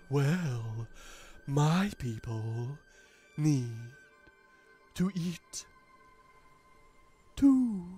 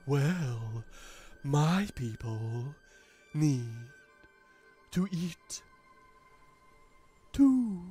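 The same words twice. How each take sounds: First: It is said in a put-on character voice. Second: It is said in a put-on character voice.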